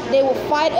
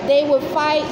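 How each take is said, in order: Both takes have the same delivery.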